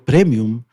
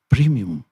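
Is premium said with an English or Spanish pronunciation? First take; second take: Spanish; English. First: It is pronounced the Spanish way. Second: It is pronounced the English way. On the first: The speaker keeps their own phonetics. "si yo digo premium, me corrigen" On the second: The speaker gives up their own language. "renuncia a su lengua y habla en inglés y dice premium"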